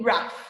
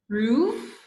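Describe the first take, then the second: First: The vowel is a short u sound. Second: The vowel is a long u sound. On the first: The speaker calls it right. "So it's a short vowel sound" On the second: The speaker calls it wrong. "Or is it making a U sound?"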